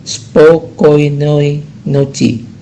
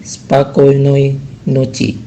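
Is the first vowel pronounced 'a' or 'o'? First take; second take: o; a. First: The first vowel sounds like 'o'. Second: The first vowel sounds like 'a'. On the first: The speaker calls it wrong. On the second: The speaker calls it right. "huruf O pertama itu tidak diucapkan O tapi diucapkan A"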